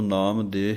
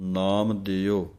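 First: The second word ends on a plain 'e' sound. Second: The second word ends with a short 'o' sound. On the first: The speaker calls it wrong. "ਨਾਮ ਦੇ ਹੀ ਇਕੱਲਾ ਕਹਿ ਦਿੰਦੇ ਹਨ" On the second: The speaker calls it right. "ਨਾਮ ਦਿਓ ਇਹ ਪਾਠ ਹੈ"

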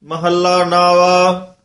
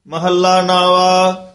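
No difference in how they are said.

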